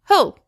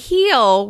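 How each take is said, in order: First: The vowel is reduced to an indistinct sound. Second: The vowel is full and clearly pronounced. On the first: The speaker calls it right. "we say he'll" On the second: The speaker calls it wrong. "We don't say he'll"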